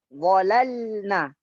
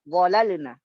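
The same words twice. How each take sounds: First: The vowelless L sound is fully sounded. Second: The vowelless L sound is cut short. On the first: The speaker calls it right. "lam yang sukun itu nampak seluruh sifatnya" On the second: The speaker calls it wrong. "Tidak bisa kita mengatakan walalna"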